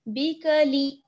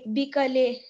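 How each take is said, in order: First: The final vowel is thin and fine. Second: The final vowel is broad, not thin. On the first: The speaker calls it right. "लाम को भी बारीक पढ़ेंगे" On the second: The speaker calls it wrong. "ऐसा आवाज नहीं आनी चाहिए कि बिकले"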